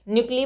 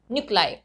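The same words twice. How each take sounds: First: न्यूक्ली said noo-klee, ending in ee; wrong reading. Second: न्यूक्लाई said noo-klye, ending in eye; right pronunciation. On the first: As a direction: show न्यूक्ली as the mistake. (गलत उच्चारण न्यूक्ली) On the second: (सही उच्चारण न्यूक्लाई) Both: Shown as a demonstration. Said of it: "न्यूक्ली मत पढ़िएगा".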